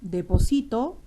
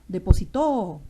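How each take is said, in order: First: The stress is on the second-to-last syllable. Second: The stress is on the last syllable. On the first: It refers to a present action. "deposito ya está en presente" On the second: It refers to a past action. "Depositó en pasado"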